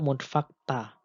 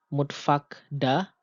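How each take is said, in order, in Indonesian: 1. Akhiran itu dimulai dengan bunyi t yang tak bersuara. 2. Akhiran itu dimulai dengan bunyi d yang bersuara. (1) "Tentunya mutfakta, ... lebih mudah diucapkan" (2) "lebih memerlukan tenaga"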